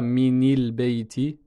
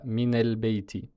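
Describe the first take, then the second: First: A vowel other than 'a' links min to al. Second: An 'a' vowel links min to al. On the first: The speaker calls it wrong. "On ne dira pas" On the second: The speaker calls it right. "Ce sera toujours une fatha"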